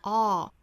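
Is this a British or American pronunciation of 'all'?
American. The vowel is said with a wider, looser mouth. "美音的话上下开口都更大更松更自然"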